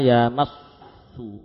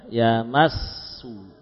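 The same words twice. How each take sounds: First: The lips round already on the first s. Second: The lips round only on the second s. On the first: The speaker calls it wrong. "ini maju sebelum saatnya" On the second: The speaker calls it right. "Sin yang pertama jangan maju dulu"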